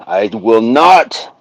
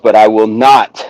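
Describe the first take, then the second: First: I will not stretched slowly, ending on a rise; slow, drawn-out refusal. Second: Said in the usual way. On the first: Shown as a demonstration. Refusing to run to film music, stretched slow and firm. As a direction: drag out "I will not" with a lifted end.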